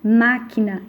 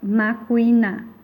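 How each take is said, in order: First: No U sound is heard after the K. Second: A U sound is heard after the K. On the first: The speaker calls it right. "Nós falamos máquina" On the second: The speaker calls it wrong. "e não macuia, macuina"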